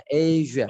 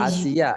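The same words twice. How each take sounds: First: "Asia" as AY-zhuh; blown zh. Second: Said in the usual way. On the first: Shown as a demonstration. Teacher showing the English version, "Asia" with blown zh. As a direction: buzz the middle of "Asia" as zh. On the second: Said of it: "itu bacanya".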